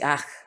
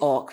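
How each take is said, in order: First: The word has an 'ah' vowel. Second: The word has an 'oh' vowel. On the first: The speaker calls it right. "we say ach" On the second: The speaker calls it wrong. "We don't say och"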